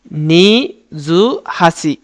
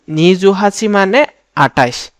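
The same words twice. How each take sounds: First: "Niju হাসি" stretched out very slowly; slow demo. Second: Said in the usual way. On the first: Shown as a demonstration. Teacher demonstrates twenty-eight very slowly for the class. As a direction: draw out every syllable for learners.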